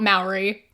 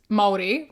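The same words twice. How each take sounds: First: The name is said the anglicized way. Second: The name is said the Māori way. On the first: The speaker calls it wrong. "Not Maori" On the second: The speaker calls it right. "It's Maori, right?"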